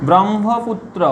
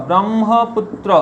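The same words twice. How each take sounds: Both takes have the same delivery.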